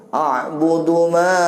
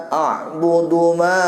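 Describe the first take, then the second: No difference in how they are said.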